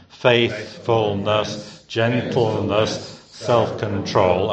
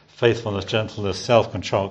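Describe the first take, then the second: First: Faithfulness, gentleness, self-control each dragged out slowly, syllable by syllable; over-pronounce every syllable in a laboured, plodding way; laboured trisyllabic. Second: Said in the usual way. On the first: Shown as a demonstration. Preacher mocking a laboured recitation, slow and plodding. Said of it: "in that sort of laboured, trisyllabic manner". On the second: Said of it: "You can easily say after me".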